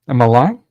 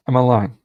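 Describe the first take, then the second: First: "lying" rising, louder, punched; "Am I lying?" hit hard with a rising "lying"; challenging question. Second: Said in the usual way. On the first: Real, not acted. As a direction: push "lying" up in open challenge. Challenging audience rhetorically.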